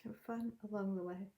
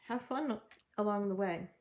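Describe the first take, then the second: First: Fun said softly and fast, like an afterthought; soft, quick repeat. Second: Said in the usual way. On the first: Shown as a demonstration. Reader repeating her advice softly to viewers. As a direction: echo the line quietly to yourself. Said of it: "repeats the line softer". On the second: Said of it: "repeats the line".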